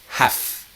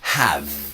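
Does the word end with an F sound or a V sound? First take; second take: F; V. First: The word ends with a voiceless F sound. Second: The word ends with a voiced V sound. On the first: It expresses an obligation. "like an F" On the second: It means possessing something. "the E is silent and it's a strong V"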